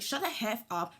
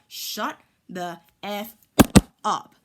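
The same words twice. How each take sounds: First: Said in the usual way. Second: "Shut the F up" slowly, with "up" punched much louder; spaced emphatic repeat. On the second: Retold or imitated. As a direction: drag out Shut the F and slam "up".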